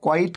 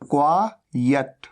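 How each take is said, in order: First: The word sounds like 'quite'. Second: The word sounds like 'quiet'. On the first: The speaker calls it wrong. "कई लोग गलती करते हैं, क्वाइट कह देते हैं" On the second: The speaker calls it right. "क्वाइट नहीं, यह है क्वायट"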